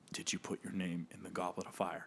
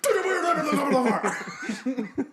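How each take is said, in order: First: It is said quietly and shakily. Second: It is said loudly and forcefully.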